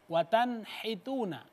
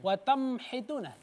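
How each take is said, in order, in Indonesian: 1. Bunyi n dibaca jelas sebelum h. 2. Bunyi n diganti dengan m.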